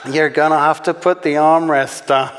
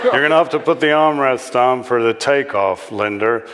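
First: Higher American character voice; wrong character voice. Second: Lightly voiced American dad; warning American father. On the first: Acted. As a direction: put on a raised American voice, mistaken for the dad's. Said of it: "wrong voice". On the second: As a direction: warn the daughter as an American father. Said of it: "Linda's father warned her".

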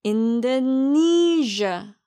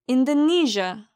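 First: Slow 인도네시아 as English "in-duh-NEE-zhuh", NEE held; slow teaching model of 인도네시아, long stressed third syllable. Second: 인도네시아 as English "in-duh-NEE-zhuh" at natural speed; stressed syllable. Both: Shown as a demonstration. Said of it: "니를 제일 강하고 길게 발음하세요".

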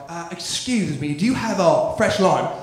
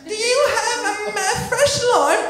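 First: Put-on lower-pitched English customer accent; mock English bar patron's accent. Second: Very high, slow English patron; high put-on English customer voice; English bar customer. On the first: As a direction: ask politely in an English accent. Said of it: "People from England". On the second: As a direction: ask haltingly in a high English voice.

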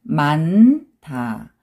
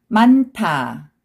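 First: 많다 split as a long 만, then separate 다; syllable by syllable. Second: 많다 joined as 만타, aspirated t; read together. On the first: Teacher breaking a word down for learners, syllable by syllable. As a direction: hold n in 많다 before a separate 다. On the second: Teacher showing the linked sound to learners, read together. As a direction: run 많다 together with an airy 타. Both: Shown as a demonstration. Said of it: "also 느 sound".

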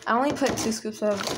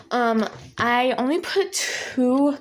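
First: Said in the usual way. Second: Slow, stretched out words; a slow, drawn-out aside. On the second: Real, not acted. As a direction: drag the words out slowly. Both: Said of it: "I don't know why I'm talking like this".

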